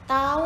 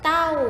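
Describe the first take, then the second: First: The syllable has a mid level tone. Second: The syllable has a falling tone. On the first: "เสียงสามัญ" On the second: "เสียงโท"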